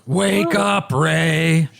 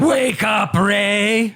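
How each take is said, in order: First: Ghoul voice without yelling; a ghoul rasping his name; ghoulish voice. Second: Ghoulish voice. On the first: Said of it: "That's ghoulish". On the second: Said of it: "Is that better?". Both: Acted.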